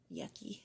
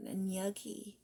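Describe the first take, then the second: First: "Yucky" dropped lower and much softer, drawn out on its own; oddly said yucky. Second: Said in the usual way. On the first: Real, not acted. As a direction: say "Yucky" low and quiet, as if savouring the word. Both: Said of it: "I don't know why I said it like that".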